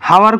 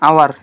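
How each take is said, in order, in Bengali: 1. শব্দটি একটি শোনা যায় এমন h ধ্বনি দিয়ে শুরু হয়। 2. শব্দটি একটি স্বরবর্ণ দিয়ে শুরু হয়, কোনো h নেই। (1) "এইটো কি হাৱাৰ কোৱা নেকি তুমি? নোকোৱা" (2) "এইচটো কি উচ্চাৰিত নহয়"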